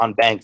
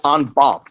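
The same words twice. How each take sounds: First: It is pronounced the Texan way. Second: It is pronounced the non-Texan way.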